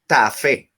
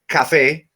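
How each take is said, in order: First: The word begins with a t sound. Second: The word begins with a k sound. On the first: This is a slip of the tongue. "we say tafe with T" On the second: This is the intended standard form. "instead of saying cafe"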